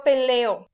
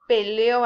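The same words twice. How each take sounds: First: Peleo stressed pe-LE-o; pe-LE-o, present-tense stress; stress on middle vowel. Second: Peleó stressed on the final ó, pe-le-Ó; pe-le-Ó, past-tense stress; stress on last vowel. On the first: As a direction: say peleo with a light final o. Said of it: "No lleva acento". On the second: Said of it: "Es en pasado". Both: Shown as a demonstration.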